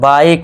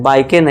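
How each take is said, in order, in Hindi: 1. शब्द k पर खत्म होता है, उसके बाद कोई स्वर नहीं। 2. आखिरी k के बाद एक स्वर की आवाज़ जुड़ती है। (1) "ई का साउंड आपको भूल जाना है" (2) "बाइके नहीं"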